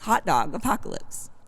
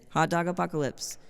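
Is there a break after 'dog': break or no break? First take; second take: break; no break. First: There is a marked break right after 'dog'. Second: The title runs together without a break. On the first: The speaker calls it right. "there's an exclamation point after the dog" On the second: The speaker calls it wrong. "instead of saying hot dog apocalypse"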